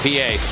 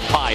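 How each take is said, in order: First: It is said as two syllables, 'pee-ay'. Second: It is said as one syllable, like 'pie'. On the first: The speaker calls it right. "that is pronounced P A" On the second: The speaker calls it wrong. "it's not Pi"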